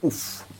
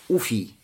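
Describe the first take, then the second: First: The word ends on a bare f sound. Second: The word ends with an ee vowel. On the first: "сказать с сукуном на конце" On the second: "с дамой в начале и с я"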